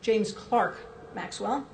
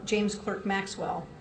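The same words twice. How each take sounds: First: The name is said with a British pronunciation. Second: The name is said with an American pronunciation.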